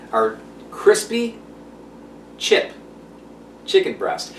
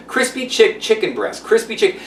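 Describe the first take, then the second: First: Slow, careful crispy chip chicken breast, each word spaced out; careful tongue-twister delivery; said slowly. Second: Crispy chick stumbled and cut short, chicken breast rushed; fumbling the tongue twister; tongue-twisted. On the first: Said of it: "I have to say it slow because it's a tongue twister". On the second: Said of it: "it's a tongue twister". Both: Shown as a demonstration.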